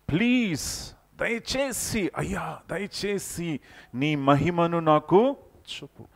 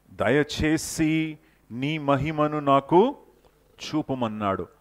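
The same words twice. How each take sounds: First: High, slow, longing plea to God; Moses pleading. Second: Said in the usual way. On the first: Acted. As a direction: beg for his glory like a yearning servant. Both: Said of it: "ఎంతగా మోషే దేవుని కోసం ఆశపడ్డాడో".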